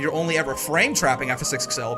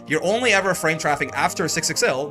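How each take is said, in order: First: The stress falls on the word 'trapping'. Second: The stress falls on the word 'after'. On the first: No other action is ever taken in that place. "means when you get your six X L blocks, you don't do anything besides frame trap" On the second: The action happens in no other place. "means you don't frame trap in other places"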